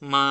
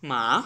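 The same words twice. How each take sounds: First: The pitch stays high and level. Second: The pitch falls from high to low. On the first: "flat tone." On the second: "ভয়েসের সর্বোচ্চ পর্যায় থেকে আমাদের ওয়ান লেভেলে চলে আসতে হবে।"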